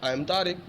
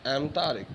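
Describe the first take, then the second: First: 'I am' is said as two full words. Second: 'I am' is shortened to one syllable. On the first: "so आई एम Tariq बोलो" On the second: "just एम Tariq"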